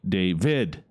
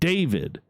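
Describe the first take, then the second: First: The stress is on the second syllable. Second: The stress is on the first syllable. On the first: "you always uh, go hard on the second syllable" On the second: "instead of David"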